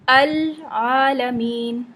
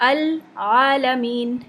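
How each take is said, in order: Both takes have the same delivery.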